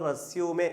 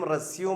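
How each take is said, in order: First: The word ends on an 'ay' vowel. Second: The word ends on an 'm' sound. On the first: It is a noun meaning a CV. "രണ്ടാമത്തെ വാക്ക് ഉച്ചരിക്കുന്നത് റെസ്യൂമെ" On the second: It is a verb meaning to continue. "ആദ്യം റെസ്യൂം എന്നും"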